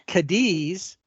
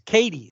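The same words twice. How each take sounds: First: It is said with the Spanish pronunciation. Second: It is said with the local Kentucky pronunciation. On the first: It names the city in Spain. "the Spanish have a city named Cadiz" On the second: It names the town in Kentucky. "in Kentucky it's Cadiz"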